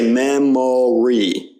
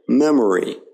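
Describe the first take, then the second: First: The middle vowel is a full, clear O. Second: The middle vowel is a weak uh sound. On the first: The speaker calls it wrong. "we don't say memory" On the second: The speaker calls it right. "the O there isn't stressed. It's more of an uh"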